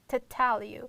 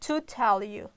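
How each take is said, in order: First: The vowel in 'to' is reduced to schwa. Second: The vowel in 'to' is full. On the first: The speaker calls it right. "you will pronounce only t sound and a schwa automatically comes together" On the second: The speaker calls it wrong. "not to tell you"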